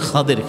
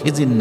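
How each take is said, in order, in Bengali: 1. নামটি Khader বলা হয়, d উচ্চারণ সহ। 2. নামটি Khizir বলা হয়, z উচ্চারণ সহ। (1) "আসলে খাদের শব্দটি খাদের" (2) "খিজির না"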